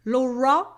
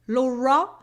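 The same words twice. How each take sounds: First: It is said with an English accent. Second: The same.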